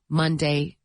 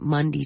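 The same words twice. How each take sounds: First: The last syllable sounds like 'day'. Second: The last syllable sounds like 'dee'. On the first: "we don't say Monday" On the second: "We say Monday, ... It's a D instead of a day"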